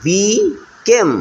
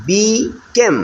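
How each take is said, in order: First: became drawn out very slowly, each syllable long; slow, stretched out. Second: Said in the usual way. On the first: Shown as a demonstration. Teacher slowly stretching became for pupils. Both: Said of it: "ভেঙে ভেঙে আমরা উচ্চারণ করবো".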